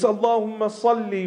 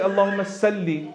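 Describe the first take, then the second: First: The s in salli is heavy and emphatic. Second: The s in salli is light and plain. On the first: The speaker calls it right. "with a sad" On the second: The speaker calls it wrong. "with the sin"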